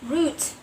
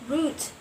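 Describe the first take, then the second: No difference in how they are said.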